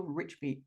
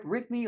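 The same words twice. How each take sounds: First: "Richby" said with a "ch", like "rich"; soft ch pronunciation. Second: "Rigby" said with a hard stop, like "Rick-bee"; hard g pronunciation. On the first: Host offering the guest an alternative surname, "Richby" with a ch. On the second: Host checking the guest's surname, "Rigby" with a hard stop. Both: Shown as a demonstration. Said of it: "Do I pronounce that right?".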